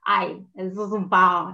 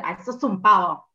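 First: Slow, drawn-out playful "Ay, sos un pavo" with a stretched "pavo"; affectionate teasing delivery. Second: Louder, dismissive "Ay, sos un pavo" with a falling stress on "un"; disdainful insult; scornful tone. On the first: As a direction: say "Ay, sos un pavo" fondly, as a tease. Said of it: "no es lo mismo decir". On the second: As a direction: say "Ay, sos un pavo" as a real put-down. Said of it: "el tono, el gesto". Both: Shown as a demonstration.

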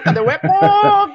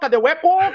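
First: High, loud, laughing call; playful laughing call. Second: Said in the usual way. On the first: Shown as a demonstration. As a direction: call out laughing, a bit slower. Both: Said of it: "Vamos ver se dá eco".

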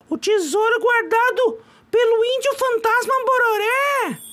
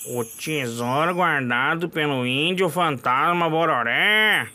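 First: Haunt the name like a spirit; mock ghostly chant of the legend; eerie echo. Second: Lower, slow ominous intoning; mock ominous legend voice; spooky low echo. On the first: Echoing the legend eerily. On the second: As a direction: let the legend rumble slowly. Echoing the legend again.

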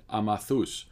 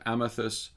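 First: Name said the Cypriot way, ah-mah-THOOS; Cypriot accent. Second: Said in the usual way. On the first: Retold or imitated. Nephew naming a lunch spot to the aunt, Cypriot accent. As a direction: say Amathus with a Cypriot accent, broad open A's. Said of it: "in a characteristic Cypriot accent".

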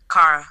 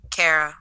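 First: Kara said as KAR-uh, open ah; Kara rhyming with "car-uh". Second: Kara said as CARE-uh; Kara rhyming with Sarah; Kara with AIR. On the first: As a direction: say Kara with an "ah" in the first syllable. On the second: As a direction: say Kara with "air" in the first syllable. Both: Shown as a demonstration. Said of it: "supposed to be pronounced that A sound".

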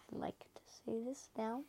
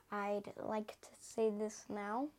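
First: Hushed whisper. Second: Said in the usual way. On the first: Shown as a demonstration. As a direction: say it again under your breath. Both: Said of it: "repeats it whispered".

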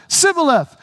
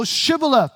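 First: "Sibboleth" with an s, a bit higher and louder; wrong Sibboleth. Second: "Shibboleth" with a clear sh at the start; correct Shibboleth. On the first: Retold or imitated. Ephraimite tries again and says Sibboleth louder. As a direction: blurt "Sibboleth" with a hissing s. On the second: Shown as a demonstration. Gileadite guard corrects him, firmly says Shibboleth. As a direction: stress the sh in "Shibboleth". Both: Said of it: "No, Shibboleth".

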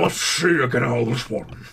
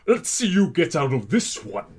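First: Slurred, noisy sea-villain voice; Davy Jones. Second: Put-on character voice, badly done; awful Roger. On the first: Acted. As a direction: slur it out like a cartoon octopus pirate. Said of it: "You sound like Davy Jones". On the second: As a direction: do a bad impression in an altered voice. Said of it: "that was an awful Roger".

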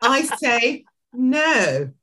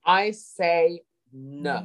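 First: Slow, high, accented "I say no"; code-switched accent. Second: Very slow, accented "I say no"; code-switched accent. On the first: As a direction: echo it with the accent, slowly. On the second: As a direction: repeat it slowly in the accent. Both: Shown as a demonstration. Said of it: "did we just code switch there".

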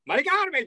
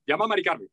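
First: Odd calling voice. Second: Said in the usual way. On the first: Acted. Showing how clients call their wife, odd high voice. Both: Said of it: "ponen una voz muy rara".

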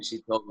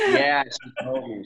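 First: Said in the usual way. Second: Laughing it out, louder and slow. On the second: Real, not acted. Guest laughing at host's Minnesota aside, laughing. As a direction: chuckle through the words.

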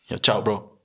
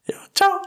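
First: Said in the usual way. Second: Goodbye leaping into a very high, loud squeak; imitated voice crack. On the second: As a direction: let your voice crack wildly upward on the goodbye. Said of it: "Ich hab letztens wieder einen gehabt".

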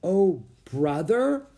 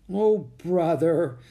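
First: Slow, high question with rising end; puzzled echo. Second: Slow, high, loud exclamation falling away; nervous. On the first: Priscilla echoes Jack's unfamiliar phrase, puzzled. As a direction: repeat it as if baffled. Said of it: "repeated Priscilla". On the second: Jack embarrassed by his sister before pilgrims, nervous. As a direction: groan it out uneasily. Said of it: "with a nervous laugh". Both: A narrator's reading.

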